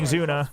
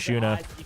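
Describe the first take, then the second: First: The name is pronounced the Australian way. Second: The name is pronounced the Korean way. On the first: "The Australians are saying Zuna" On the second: "The Koreans are saying Shuna"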